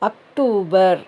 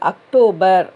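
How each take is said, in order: First: The month is said the Hindi way. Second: The month is said the English way. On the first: "ஹிந்தியில் அக்டூபர்னு சொல்லணும்" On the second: "இங்கிலீஷில் அக்டோபர்"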